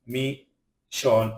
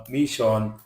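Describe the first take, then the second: First: "mission" broken into two separate syllables; "mission" with a gap mid-word; split syllables. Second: Said in the usual way. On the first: Shown as a demonstration. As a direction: sound out "mission" slowly in syllables. Word split by syllable, then whole.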